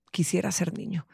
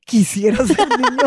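First: Put-on soft, low retelling of the child's wish; retold quote. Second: Slow, put-on voice of the boy; mock child voice. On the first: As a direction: say it quietly, like a sigh. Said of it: "y voltea y dice". (en voz baja, citando al niño) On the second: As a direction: act out the kid's dramatic wish, slowly. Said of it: "y esto le pasa a los hombres". (imitando al niño, despacio)

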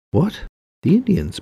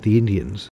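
First: High-pitched, startled echo question; incredulous. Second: Said in the usual way. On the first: A narrator's reading. Bolio echoing Ray's suggestion of the Indians, incredulous. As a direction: repeat it back in sharp disbelief, much higher and louder. Bolio taken aback, echoes Ray.

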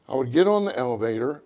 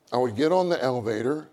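The two takes are said the same way.

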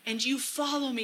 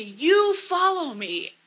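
First: Said in the usual way. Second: YOU high, loud and drawn out; stress on YOU. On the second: Shown as a demonstration. Speaker praying the verse to Jesus, stressing YOU. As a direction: stretch and lift the word YOU. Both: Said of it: "emphasizing different words to really get that".

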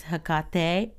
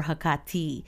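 First: "Hecate" with stressed middle and final "ay" sound; Hecate ending in "tay". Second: "Hecate" with stressed middle and final "ee" sound; Hecate ending in "tee". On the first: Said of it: "the right way to say it is emphasizing the ka". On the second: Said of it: "so you can say either one". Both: Shown as a demonstration.

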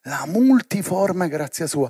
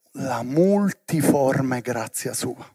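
First: "La multiforme grazia sua" repeated slowly at normal level, stress on "multiforme"; emphatic repeat. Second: "la multiforme grazia sua" slow and soft, lower, each word weighed; slow emphatic phrase. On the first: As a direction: restate it firmly, hitting "multiforme". (ripetizione lenta e decisa con accento su "multiforme") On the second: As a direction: lean into "multiforme" slowly and quietly. (frase lenta e sommessa, più grave, con peso su "multiforme") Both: Shown as a demonstration.

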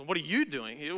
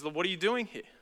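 First: "you" lifted above the other words; stress on YOU. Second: "doing" given the weight, then falling; stress on DOING. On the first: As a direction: lean on "you" in a questioning way. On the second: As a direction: lean on "doing" and let the question drop. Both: Shown as a demonstration. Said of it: "We don't know how God emphasized".

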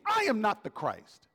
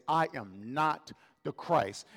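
First: Mock scream, raised pitch without full volume; John. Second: Slow, weighted delivery of "I am not the Christ."; emphatic. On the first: Preacher imitating John screaming his denial, a mild mock scream. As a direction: cry out the denial higher, a restrained scream. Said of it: "Like he's screaming". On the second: Acted. Preacher quoting John's denial to the delegates, slow and emphatic. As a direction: space out "I am not the Christ." word by word, slowly. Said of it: "John emphatically says".

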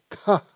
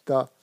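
First: "ta" with a puff of breath after the T; aspirated T. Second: "Ta" pure, with no puff of air; unaspirated T. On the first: Teacher showing the second consonant, "ta" lightly aspirated. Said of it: "c'est avec une légère aspiration". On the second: Teacher contrasting the pure sound, "Ta" without breath. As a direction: say "Ta" cleanly, no aspiration. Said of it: "c'est le ta pur". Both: Shown as a demonstration.

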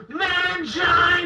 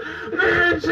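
First: High, slow, sung-out shout; mock wrestling cry. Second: Higher, lighter replay of the battle cry; mock wrestling cry. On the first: The teen wrestler calls out his finishing move, mock shout. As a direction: belt out the finishing-move name. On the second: Recalling his finishing move to a friend, light mock cry. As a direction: toss the move name off again, half-hearted. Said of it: "That was my finishing move".

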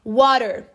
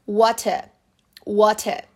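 First: "water" with T as a tapped R and an R ending; American flapped T. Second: "water" with a clear T and no final R; British true T. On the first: Teacher giving learners the American word, flapped T. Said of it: "T sair com som de R". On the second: Teacher contrasting UK with American speech, true T. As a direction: say "water" British style, open final vowel. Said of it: "eles pronunciam realmente com som de T". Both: Shown as a demonstration.

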